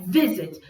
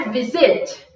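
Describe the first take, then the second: First: Visit with strong first syllable, falling zit; stress on vi. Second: Visit stressed on the second syllable, zit; wrong final stress. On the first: Teacher giving the right way, visit with stressed vi. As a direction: hit vi and drop the end of visit. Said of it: "é visit". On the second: Teacher showing the wrong way, visit with stressed zit. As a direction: push the weight onto the end of visit. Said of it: "não é visit". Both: Shown as a demonstration.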